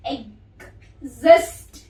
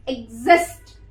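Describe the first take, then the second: First: एग्जिस्ट slowly, split as e-g-zist; word broken into sounds. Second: Said in the usual way. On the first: Shown as a demonstration. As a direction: pause inside एग्जिस्ट before a loud z. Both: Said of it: "break कर करके बता रही हूँ".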